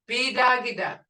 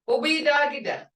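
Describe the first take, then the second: First: The word is shortened, dropping the opening 'o'. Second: The word is said in full, starting with 'o'. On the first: "I shorten it up" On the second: "Instead of saying obidagida"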